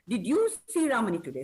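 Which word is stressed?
you. The word you is stressed. The question is about the listener, not someone else. "So I am stressing on you"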